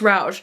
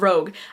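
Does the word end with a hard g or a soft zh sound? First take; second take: soft zh; hard g. First: The word ends with a soft zh sound. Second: The word ends with a hard g sound. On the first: The speaker calls it right. "I think it's Rouge" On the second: The speaker calls it wrong. "I was saying Rogue earlier and I realized that was way wrong"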